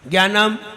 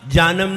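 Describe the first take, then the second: First: It begins with a hard g-y sound. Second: It begins with a plain j sound. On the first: "it is wrong, ना इसमें गा है ना इसमें या है" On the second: "जानम नहीं"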